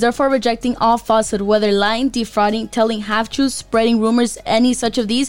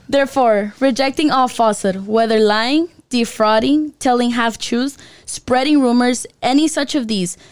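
First: It is read very fast. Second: It is read more slowly.

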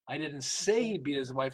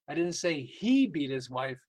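First: The stress is on "say". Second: The stress is on "beat".

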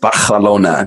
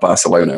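First: The name is pronounced the Spanish way. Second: The name is pronounced the English way. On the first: The speaker is showing off after a short trip abroad. "all of a sudden it's Barcelona" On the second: This is the usual everyday name. "not Barcelona"

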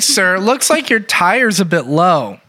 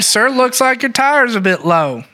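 First: It is spoken in a plain, neutral accent. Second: It is spoken in a Southern American accent. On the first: The speaker calls it wrong. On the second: The speaker calls it right.

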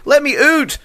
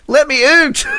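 First: The word out sounds like oot. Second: The same.

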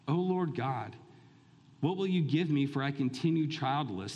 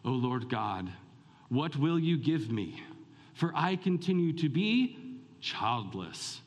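First: It is read in a plain, neutral tone. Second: It is said in a very pious, reverent tone.

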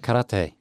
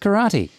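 First: It is pronounced the strict, pedantic way. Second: It is pronounced the common everyday way. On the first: This is the technically proper form. "if you really want to be pedantic" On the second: This is the form most people use. "Everyone says karate"

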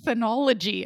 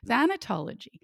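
First: A middle syllable is dropped from the word. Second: Every syllable of the word is pronounced. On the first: The speaker calls it wrong. "I want to say thanology" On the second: The speaker calls it right. "I'm going to try that again"

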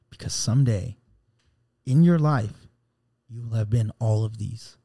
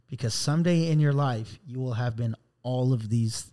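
First: It is read with more feeling and expression. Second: It is read in a plain, less emotional way.

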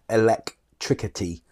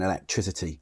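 First: The c before -ity is a hard k sound. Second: The c before -ity is a soft s sound. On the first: "why don't we say things like electricity" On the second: "a soft C or an S sound in, like, electricity"

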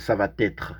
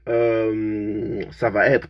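First: A linking sound joins 'va' and 'être'. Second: The words are said without an added linking sound. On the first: The speaker calls it wrong. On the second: The speaker calls it right.

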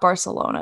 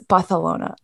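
First: Barcelona is said with a plain English pronunciation. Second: Barcelona is said with a put-on Spanish pronunciation. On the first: This is the ordinary way to say it. "It's not Barcelona" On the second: The speaker is acting pretentiously cultured. "It's Barcelona"

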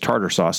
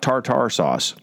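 First: The first word has a D sound in the middle. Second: The first word has a T sound in the middle. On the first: This is the cat's actual name. The speaker calls it right. "That cat's name is" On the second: This is the name of the condiment. The speaker calls it wrong.

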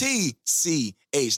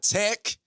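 First: It is spoken as three separate letters. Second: It is spoken as one single-syllable word. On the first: The speaker calls it right. "And it's TCH" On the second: The speaker calls it wrong. "not tech"

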